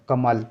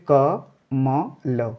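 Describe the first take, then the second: First: Said in the usual way. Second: क, म, ल said one by one with pauses; split syllables. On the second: Shown as a demonstration. Teacher sounds out each letter for the class, slowly. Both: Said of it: "आपको मुंह नहीं खोलना है".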